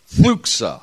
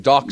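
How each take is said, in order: First: The word is said with a harsh, spitty sound. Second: The word is said plainly, without a harsh sound. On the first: "It's really... Got to put some spit to it" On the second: "Say it with me"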